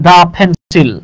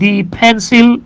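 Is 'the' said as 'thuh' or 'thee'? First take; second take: thuh; thee. First: 'The' is said with a short 'uh' vowel. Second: 'The' is said with a long 'ee' vowel.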